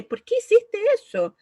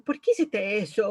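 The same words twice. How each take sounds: First: Much higher and louder, demanding an answer; accusing demand. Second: Said in the usual way. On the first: Shown as a demonstration. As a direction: fire the question like an accusation. (pregunta acusadora, mucho más aguda y fuerte) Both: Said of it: "de cualquier forma que uno diga".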